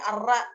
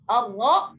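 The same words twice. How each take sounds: First: The r sound is light and thin. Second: The r sound is heavy and full. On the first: The speaker calls it wrong. "jadi ra-nya dibaca di tipis" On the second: The speaker calls it right. "ra-nya itu dibaca tebal"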